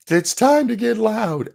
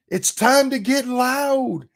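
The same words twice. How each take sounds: First: High, slow, half-hearted rally cry; mock a limp attempt to hype the crowd. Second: High, slow hammed-up rally cry; mock enthusiastic. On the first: Commentator imitating [name]'s half-hearted call, high and slow. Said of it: "she gives this half-hearted". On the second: Commentator mocking [name]'s speech, high and slow mock enthusiasm. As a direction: parody a forced pep-rally line. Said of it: "very enthusiastic voice".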